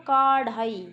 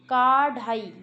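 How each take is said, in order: First: The first vowel is long. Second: The first vowel is long.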